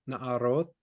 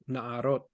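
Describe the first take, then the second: First: The word ends with a th sound. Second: The word ends with a plain t sound.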